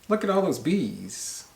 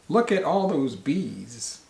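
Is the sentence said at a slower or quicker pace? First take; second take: quicker; slower. First: The sentence is said at a quicker pace. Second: The sentence is said at a slower pace.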